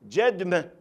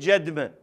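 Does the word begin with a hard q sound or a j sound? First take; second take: j sound; j sound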